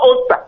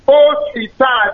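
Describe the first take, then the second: First: The name is said quickly, in an English style. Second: The name is said carefully, not in English style. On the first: The speaker calls it wrong. "You are pronouncing it fast in an English way" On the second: The speaker calls it right. "Say Osita. O-S-I-T-A"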